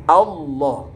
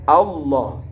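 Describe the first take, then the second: Both takes have the same delivery.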